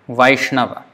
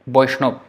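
First: It starts with V and ends in a. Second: It starts with B and ends in ob. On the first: This is the Sanskrit pronunciation. "but in Sanskrit is Vai, Vaishnava" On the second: This is the Bengali pronunciation. "but in Bengali, Boishnob"

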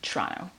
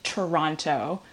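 First: It is said quickly with reduced sounds. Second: It is said slowly with every sound pronounced. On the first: This is how locals say it. "we kind of just like" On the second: This is how an outsider says it. "You say it very proper"

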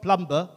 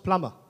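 First: The b sound is pronounced in the middle. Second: The b sound is silent in the middle. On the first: The speaker calls it wrong. "It's not plumber" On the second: The speaker calls it right. "The B is silent. It's plumber"

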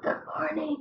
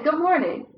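First: It is said in a sick, damaged voice. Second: It is said in a normal, healthy voice.

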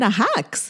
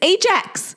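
First: It is pronounced the Spanish way. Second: It is pronounced the English way. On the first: This is how it was said at home. The speaker calls it wrong. "my mom always called it ajax" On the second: This is the brand's proper name. The speaker calls it right. "It's Ajax"

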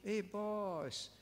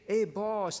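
First: It is said softly and gently. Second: It is said with a sarcastic, mocking edge.

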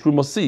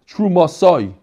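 First: The word ends with an 'ee' sound. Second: The word ends with an 'eye' sound. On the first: The word is read as a singular. "if I were to read it by myself, I would read it like this" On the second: The word is read as a plural. "This is how we read it"

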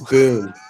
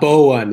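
First: The name is said as one syllable. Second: The name is said with two syllables. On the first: The speaker calls it right. "It's Boone. Like Daniel Boone" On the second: The speaker calls it wrong. "It's not Bowen"

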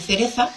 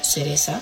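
First: The c and z sound like English 'th'. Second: The c and z sound like 's'.

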